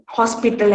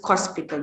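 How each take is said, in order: First: Said in the usual way. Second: "hospital" as kospital; k replacing h. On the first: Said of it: "hospital as hospital". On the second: Shown as a demonstration. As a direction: start "hospital" with a k sound. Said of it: "The h sound is replaced".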